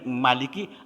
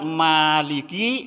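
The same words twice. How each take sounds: First: The vowel after the m is short. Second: The vowel after the m is long. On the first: The alif letter is dropped from the reading. "menjadi Maliki, alifnya kebuang" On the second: The alif letter is kept in the reading. "kalau kita tidak baca panjang Maliki"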